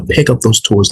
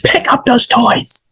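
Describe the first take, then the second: First: Said in the usual way. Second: Much higher-pitched parental order, short of yelling; high, raised-voice command to a child. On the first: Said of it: "that's raising your voice". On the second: Shown as a demonstration. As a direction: raise your voice at a kid without yelling. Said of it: "that's raising your voice of how I was just doing it".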